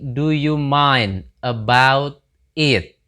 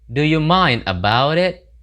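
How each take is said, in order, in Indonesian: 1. Setiap kata diucapkan terpisah dan jelas. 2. Kata-katanya diucapkan cepat dengan bunyi yang tersambung. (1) "asal kata dari do you mind about it" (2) "menggabung-gabungkan bunyi ya gitu ya. Ketika ngomongnya itu karena terlalu cepat"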